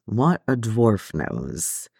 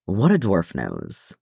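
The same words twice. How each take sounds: First: Very slow, softer musing repeat; the dwarf repeating it to himself, slow and quiet; musing, slower and softer. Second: Slow, thoughtful musing; a pipe-puffing dwarf, slowly musing aloud. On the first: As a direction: let the words drift, lost in thought. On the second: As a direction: turn the words over slowly, pondering. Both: A narrator's reading. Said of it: "Gimli mused".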